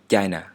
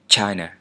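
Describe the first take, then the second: First: The ch is said without a puff of air. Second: The ch is said with a puff of air. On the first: The speaker calls it right. "like China, but without the aspiration" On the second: The speaker calls it wrong. "not China"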